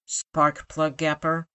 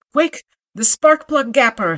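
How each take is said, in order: First: Said in the usual way. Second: Loud urgent shout, much higher. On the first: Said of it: "repeated request before the shout". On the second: Acted. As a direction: yell it out for the tool. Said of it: "he shouted".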